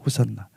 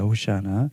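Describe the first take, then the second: First: It is said as ho-san-na, the Greek form. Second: It is said as ho-shi-a-na, the Hebrew form. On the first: "이 헬라어거든요" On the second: "이 정확히 히브리어 발음은 호시아나입니다"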